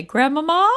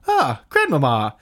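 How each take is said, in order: First: High whiny call of Grandmama; childlike call. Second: Slow resolving sigh. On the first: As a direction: call out like a lost little kid. T-shirt slogan voiced. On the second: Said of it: "finally resolve it with". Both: Retold or imitated.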